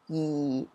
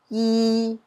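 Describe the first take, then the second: First: It is said with Cantonese tone four. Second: It is said with Cantonese tone three.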